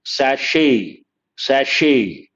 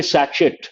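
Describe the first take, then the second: First: French way: sachet as sashay; correct French sachet. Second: Sachet said satchet, with a ch and hard t; the shop way, sachet as sa-chit; wrong sachet. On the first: Teacher shows students the right way: sachet as sashay. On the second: Teacher shows students the wrong way: sachet as satchet. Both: Shown as a demonstration. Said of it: "The correct pronunciation".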